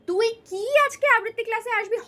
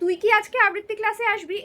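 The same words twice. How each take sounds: First: The vowel in 'ki' is long. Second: The vowel in 'ki' is short. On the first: It asks for a full answer. The speaker calls it wrong. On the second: It is a yes-or-no question. The speaker calls it right.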